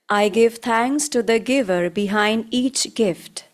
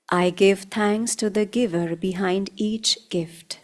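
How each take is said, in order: First: It is spoken in a loud voice. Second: It is spoken in a softer voice. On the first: "first loudly" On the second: "then in a softer voice"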